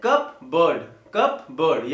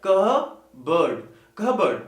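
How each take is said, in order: First: कप बर्ड in two parts, sounding the p; common mispronunciation. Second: कह बर्ड in two parts, no p; correct pronunciation. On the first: Teacher imitating learners' error, कप बर्ड as "cup-burd". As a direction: pop the p in कप बर्ड. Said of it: "प का sound नहीं आएगा". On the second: Teacher correcting learners, कह बर्ड with the p silent. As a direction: break कह बर्ड into "kuh... burd". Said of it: "it should be". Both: Shown as a demonstration.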